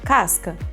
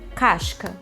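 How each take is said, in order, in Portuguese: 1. É dito com sotaque paulistano. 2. É dito com sotaque de Florianópolis. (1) "esse é o sotaque paulistano" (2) "Sotaque do Manezinho, lá, Santa Catarina, Florianópolis"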